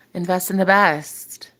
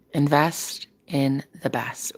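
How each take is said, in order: First: Slow slogan. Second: Slow mantra. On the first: Shown as a demonstration. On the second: Retold or imitated. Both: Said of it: "I gotta get that on a t-shirt".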